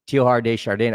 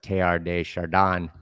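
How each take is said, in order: First: The name is said with English pronunciation. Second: The name is said with French pronunciation.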